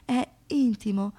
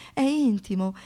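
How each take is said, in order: Both takes have the same delivery.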